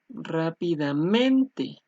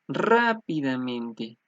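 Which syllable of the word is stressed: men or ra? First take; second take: men; ra. First: The stress falls on the syllable men. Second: The stress falls on the syllable ra. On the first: "otros que dirían que es men" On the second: "algunos dirían que es ra"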